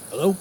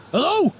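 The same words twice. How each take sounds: First: Said in the usual way. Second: High, urgent hello; urgent hello into a dead phone; calling out. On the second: Acted. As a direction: call into the dead line. Call drops on the phone.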